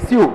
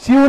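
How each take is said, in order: First: Short "स्यू", clean s and y-glide; brisk "syoo" for "स्यू", not dragged; corrected pronunciation. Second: Loud, high, stretched "स्यू" as the mistake; mock the pupils' "स्यू", dragged out towards "shyoo"; exaggerated long "स्यू", raised and loud; wrong pronunciation. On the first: Shown as a demonstration. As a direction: model "स्यू" as one quick syllable. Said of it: "नहीं रे, स्यू". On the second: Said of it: "स्यू नहीं रे".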